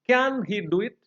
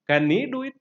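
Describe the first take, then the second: First: The stress falls on the word can. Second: The stress falls on the word he. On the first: "If the stress is on can" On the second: "if the stress uh, falls on the pronoun he"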